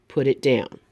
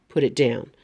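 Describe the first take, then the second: Both takes have the same delivery.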